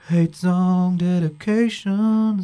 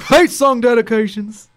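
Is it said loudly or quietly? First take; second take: quietly; loudly. First: It is said quietly. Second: It is said loudly.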